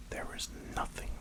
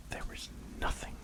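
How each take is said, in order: Both takes have the same delivery.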